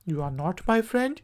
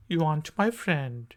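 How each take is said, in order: First: Said in the usual way. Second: Aren't as ant, r dropped; silent r contraction. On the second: Shown as a demonstration. Teacher contrasting full and contracted. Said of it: "आर जो है वो silent है".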